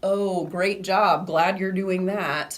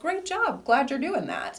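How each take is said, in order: First: It is said with a sarcastic tone. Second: It is said with a sincere tone.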